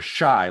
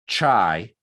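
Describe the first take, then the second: First: It begins with an sh sound. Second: It begins with a ch sound. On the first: "or shy like Chicago" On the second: "it's not chai"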